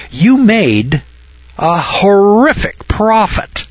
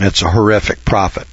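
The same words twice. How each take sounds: First: High, slow, drawn-out mock shock on horrific; mock horror. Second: Said in the usual way. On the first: Teacher mocking the profit as scandalous, high mock shock. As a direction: stretch horrific up high in pretend outrage.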